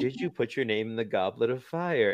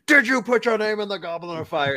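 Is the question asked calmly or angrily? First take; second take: calmly; angrily. First: The question is asked calmly and gently. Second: The question is asked angrily and aggressively.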